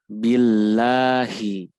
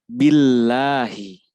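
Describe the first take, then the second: No difference in how they are said.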